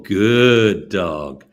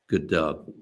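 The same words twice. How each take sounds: First: It is said in a much more excited voice. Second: It is said in a calm, mild voice.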